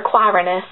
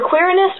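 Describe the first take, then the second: First: Quirinus with a long i, like "KWHY-rin-us"; alternative pronunciation. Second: Quirinus with a short i, like "KWEER-in-us"; first pronunciation option. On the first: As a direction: say Quirinus starting "kwai", rhyming with "why". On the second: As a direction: say Quirinus starting "kwirr", short first vowel. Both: Shown as a demonstration. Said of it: "not exactly sure how to pronounce it".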